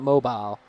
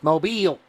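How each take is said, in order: First: The word is pronounced the non-southern way. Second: The word is pronounced the southern way. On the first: The speaker calls it wrong. "you said that wrong. It's not mobile" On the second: The speaker calls it right. "It's mobile. You ain't southern"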